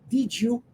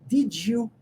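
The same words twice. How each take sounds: The two takes are said the same way.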